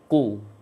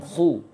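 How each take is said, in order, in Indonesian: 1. Bunyi pertama adalah hentian bersih tanpa napas. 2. Bunyi pertama berhembus, dengan napas mengalir. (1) "Tapi qu" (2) "Jangan khu"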